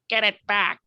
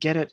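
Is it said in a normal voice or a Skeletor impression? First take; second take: Skeletor impression; normal voice. First: It is said in a Skeletor impression voice. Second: It is said in his normal voice.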